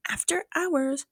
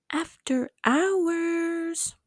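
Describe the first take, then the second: First: Said in the usual way. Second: "After hours" stretched very slow and higher; "After hours" said lazily slow, pitched up; drawn out. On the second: Shown as a demonstration. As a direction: drag out "After hours" slowly, each syllable long.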